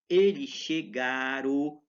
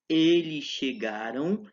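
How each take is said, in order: First: The final nasal ending is dropped. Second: The final nasal ending is clearly kept. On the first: This is how many people say it in some places. "a gente ouve muitas pessoas dizer" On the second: This is the formal way to say it. "em linguagem formal esse M ainda não caiu"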